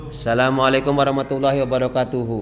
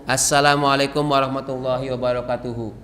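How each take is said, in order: The two takes are said the same way.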